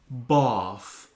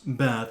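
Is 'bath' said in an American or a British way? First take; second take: British; American. First: The word is said with a British vowel. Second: The word is said with an American vowel. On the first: The speaker calls it right. "it's pronounced Bath" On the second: The speaker calls it wrong. "you Americans, you always pronounce it as"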